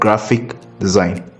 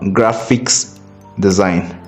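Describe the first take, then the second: First: The first word ends without an s sound. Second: The first word ends with an s sound. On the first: The speaker calls it right. "but graphic design. G R A P H I C without an S" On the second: The speaker calls it wrong. "It is not graphics design"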